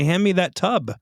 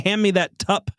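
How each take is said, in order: First: The last word ends with a 'b' sound. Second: The last word ends with a 'p' sound. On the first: The speaker calls it right. "You say" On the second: The speaker calls it wrong. "You don't say"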